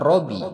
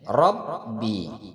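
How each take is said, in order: First: The b sound is single and short. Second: The b sound is doubled and held. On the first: The speaker calls it wrong. "bukan Robi" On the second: The speaker calls it right. "Kemudian pada huruf ba"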